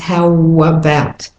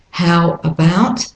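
First: The words run together smoothly. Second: The words are said separately.

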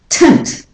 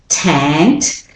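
First: The syllable has a reduced schwa vowel. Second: The syllable has a full vowel. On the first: The speaker calls it right. "but tant" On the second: The speaker calls it wrong. "the a in tant becomes the schwa. So it's not tant"

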